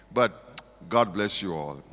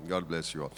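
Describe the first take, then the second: First: Sincere blessing. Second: Softer blessing. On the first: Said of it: "blessing after stressful game". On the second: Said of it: "repeated blessing". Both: Real, not acted.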